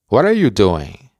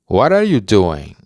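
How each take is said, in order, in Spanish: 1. La palabra are se pronuncia, enlazada con what. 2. La palabra are se pronuncia, enlazada con what.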